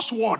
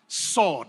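First: The w sound is pronounced. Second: The w sound is silent. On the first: The speaker calls it wrong. "It's not sword" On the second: The speaker calls it right. "Sword, right?"

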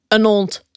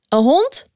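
First: The h at the start of the noun is dropped. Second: The h at the start of the noun is pronounced.

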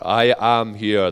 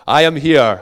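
First: The voice sounds flat and robotic. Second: The voice sounds warmer and more natural. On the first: The speaker calls it wrong. "That sounds a bit robotic" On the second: The speaker calls it right. "Let me start again"

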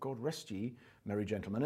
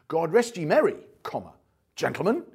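First: There is a pause after 'ye'. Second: There is a pause after 'merry'.

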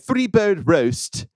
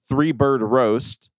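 First: It is said in a put-on British accent. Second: It is said in a plain American accent.

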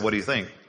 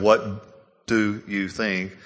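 First: The words run together as one reduced chunk. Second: Each word is said fully and separately. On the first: This is the casual, everyday wording. "most of the time people don't really say it properly like that. They say" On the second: This is the formal, proper wording. "That's more proper English"

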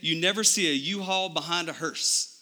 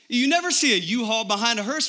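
First: It is said in a Texas accent. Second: It is said in a plain accent.

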